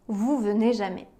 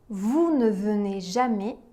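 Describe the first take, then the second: First: The word 'ne' is dropped entirely. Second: The word 'ne' is pronounced in full. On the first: This is the casual, spoken-style negation. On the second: This is the formal, written-style negation.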